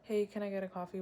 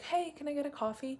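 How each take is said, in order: First: It is said in a flat, low-energy way. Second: It is said in a confident, energetic way.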